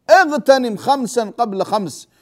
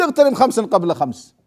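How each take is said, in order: First: Slow, weighted اغتنم with every word stretched; a preacher dwelling on اغتنم خمسا قبل خمس; slow emphatic repeat. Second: Said in the usual way. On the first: Shown as a demonstration. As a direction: repeat it slowly so it sinks in.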